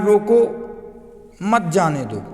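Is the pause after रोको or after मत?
after रोको. The pause comes after रोको.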